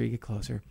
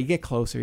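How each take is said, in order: First: Hushed repeat. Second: Said in the usual way. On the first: Acted. Host nearing the mystery island, softly hushed. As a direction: drop much softer and a bit lower on the repeat.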